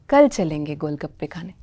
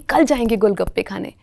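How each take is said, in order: First: It is said in a put-on announcer voice. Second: It is said in a natural, casual voice.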